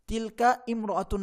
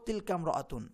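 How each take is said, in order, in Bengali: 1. দ্বিতীয় শব্দের শুরুর স্বরবর্ণটি স্পষ্টভাবে উচ্চারিত হয়। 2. দ্বিতীয় শব্দের শুরুর স্বরবর্ণটি বাদ যায় এবং সংযুক্ত হয়ে যায়। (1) "না বলে" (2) "আমরা বলবো"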